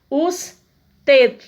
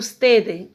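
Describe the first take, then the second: First: The word ends cleanly on the final D. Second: An extra vowel sound follows the final D. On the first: The speaker calls it right. "a pronúncia morre no D" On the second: The speaker calls it wrong. "Eu não vou dizer os TED, como o brasileiro"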